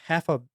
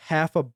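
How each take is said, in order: Both takes have the same delivery.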